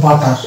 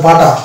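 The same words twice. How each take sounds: First: বাটার with the final R drawn in; American, R sounded. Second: বাটা ending on an open A; British, silent R. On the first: Teacher shows American English butter, R sounded. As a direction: say বাটার ending on a clear R. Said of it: "এটা র টানতে হবে". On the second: Teacher shows British English butter, silent R. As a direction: say বাটা with no final R. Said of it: "not butter". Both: Shown as a demonstration.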